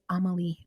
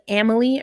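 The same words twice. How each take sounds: First: The A vowels in the name sound soft. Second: The A vowels in the name sound hard. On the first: This is the speaker's preferred way. "I would say Amalie. I like more soft A's" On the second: This is how most people say it. "most people say"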